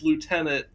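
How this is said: It is said the French or American way.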